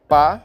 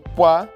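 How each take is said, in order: First: The consonant is said without lip rounding. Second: The consonant is said with rounded lips. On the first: "sem a labialização" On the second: "com a labialização"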